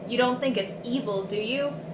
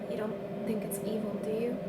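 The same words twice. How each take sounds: First: It is spoken louder, projected outward. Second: It is spoken in a very quiet voice. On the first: "To project for the microphone" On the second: "in a very quiet voice"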